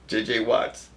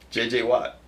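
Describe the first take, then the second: First: The name ends with an s sound. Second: The name ends without an s sound. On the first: The speaker calls it wrong. "You don't pronounce the S" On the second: The speaker calls it right. "There you go"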